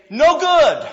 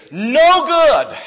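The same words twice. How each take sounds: First: "No good." hit high and hard on No; emphatic no good. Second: "No good." repeated, No high and loud; emphatic no good. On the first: Preacher voicing God's verdict, stress on No. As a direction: punch "No" up high and loud. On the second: Preacher repeating God's verdict emphatically. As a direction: land "No" hard with a falling tune. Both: Retold or imitated. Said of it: "It's emphatic in the original language".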